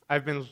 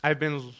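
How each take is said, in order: Both takes have the same delivery.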